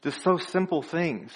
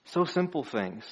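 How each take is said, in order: First: Said in the usual way. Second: Soft echo. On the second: Shown as a demonstration. Preacher echoes his point to the congregation, softer. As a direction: repeat so simple things much softer.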